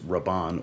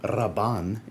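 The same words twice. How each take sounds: First: The R is said plainly, without a roll. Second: The R is rolled with a trill.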